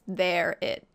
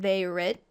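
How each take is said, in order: First: The r sound ends the first word. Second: The r sound starts the second word. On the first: The speaker calls it right. "it's their it" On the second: The speaker calls it wrong. "It's not they rit"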